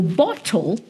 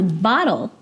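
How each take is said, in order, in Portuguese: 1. É dito com um sotaque não americano. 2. É dito com sotaque americano.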